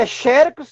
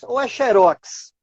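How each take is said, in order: First: "xerox" stressed on XE, paroxytone; stress on first syllable. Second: "xerox" stressed on ROX, oxytone; stress on last syllable. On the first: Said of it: "se a sílaba tônica for a penúltima". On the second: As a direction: hit the final syllable of "xerox", xe-RÓX. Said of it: "são palavras oxítonas em X". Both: Shown as a demonstration.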